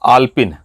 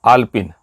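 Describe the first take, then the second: No difference in how they are said.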